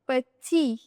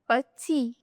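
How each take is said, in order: Both takes have the same delivery.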